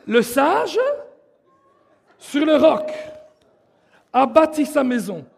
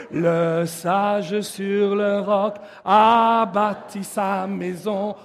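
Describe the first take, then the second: First: Spoken phrase by phrase, with pauses; teaching recitation. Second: Slow, low, sustained singing; sung. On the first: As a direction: call out each piece for the group to follow. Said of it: "Je vais vous l'apprendre". (récité par morceaux, avec des pauses) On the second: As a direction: sing it slowly, leading the group. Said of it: "on va le chanter". (chanté lentement, dans le grave) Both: Shown as a demonstration.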